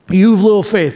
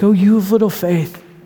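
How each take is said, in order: First: It sounds harsh and condemning. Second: It sounds gentle and affectionate.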